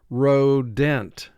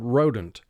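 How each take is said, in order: First: The second syllable has a clear, full vowel. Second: The second syllable has a reduced, weak vowel. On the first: This helps to remember the spelling. "for spelling purposes ... we mentally pronounce it rodent" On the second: This is how it is said in everyday talk. "In conversation, we pronounce this word rodent"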